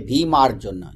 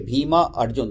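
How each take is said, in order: First: The two names are run together as one word. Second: The two names are said as separate words. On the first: The speaker calls it right. "they say Bhima Arjuna. So that they say together" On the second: The speaker calls it wrong. "they don't say Bhima Arjun"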